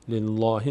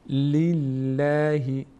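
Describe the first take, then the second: First: The l sound is heavy and full. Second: The l sound is light and thin. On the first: The speaker calls it wrong. "لله نمیگیم" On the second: The speaker calls it right. "لفظ جلاله پر خونده نمیشه"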